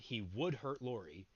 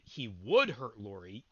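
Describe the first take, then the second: First: Said flatly, with no special stress on 'would'. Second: Said with strong emphasis on 'would'. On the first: The speaker calls it wrong. "if you say that with a flat inflection, it doesn't work" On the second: The speaker calls it right. "if you italicize would"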